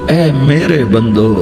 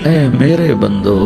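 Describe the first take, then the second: Both takes have the same delivery.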